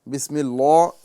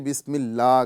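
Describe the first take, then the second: First: The L in Allah sounds thick and heavy. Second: The L in Allah sounds thin and light. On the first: The speaker calls it wrong. "ये नहीं कहा जाएगा" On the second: The speaker calls it right. "बल्कि बिस्मिल्लाह कहा जाएगा"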